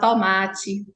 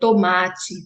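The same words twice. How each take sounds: First: The o is pronounced open. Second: The o is pronounced closed. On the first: "com esse o aberto" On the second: "esse o é fechado"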